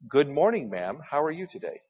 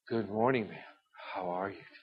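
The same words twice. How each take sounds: First: It is said in a plain, polite tone. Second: It is said in a suggestive, inappropriate tone.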